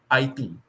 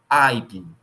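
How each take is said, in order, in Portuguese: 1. A tônica está na última sílaba. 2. A tônica está na antepenúltima sílaba. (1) "E se ela fosse oxítona" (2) "Se ela fosse proparoxítona"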